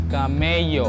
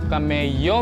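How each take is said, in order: First: The middle consonant is a y sound. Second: The same.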